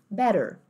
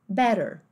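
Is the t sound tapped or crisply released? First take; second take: tapped; tapped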